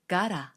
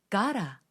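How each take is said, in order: Both takes have the same delivery.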